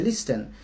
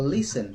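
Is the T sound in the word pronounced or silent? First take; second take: pronounced; silent. First: The T in the middle is pronounced. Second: The T in the middle is silent. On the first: Some speakers elsewhere say it this way. "Like Nigerian people, they say" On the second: Speakers in the speaker's own country say it this way. "we silent T, we call"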